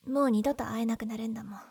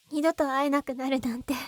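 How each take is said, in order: First: Breathy, sorrowful whisper, trailing into a falling line; sad whisper. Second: Said in the usual way. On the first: Acted. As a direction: whisper it as if this is goodbye forever. Sad farewell to a loved friend.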